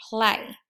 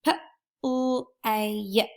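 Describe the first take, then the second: First: Said in the usual way. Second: P-L-A-Y stretched letter by letter; sounding out words. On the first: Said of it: "sound out the word". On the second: Shown as a demonstration. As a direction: sound out P-L-A-Y slowly, each letter apart. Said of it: "use my stretchy snake to sound out the word".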